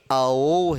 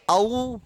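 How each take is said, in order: First: "औ" slow, low, open ao; drawn-out low open औ; correct modern pronunciation. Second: "औ" as a-oo, ending in oo; old-style glide to oo in औ; old, rejected pronunciation. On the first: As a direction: say औ as "ao", not "a-oo". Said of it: "अब ये औ है". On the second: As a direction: say औ as slow "a-oo". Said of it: "अब ये औ नहीं है". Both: Shown as a demonstration.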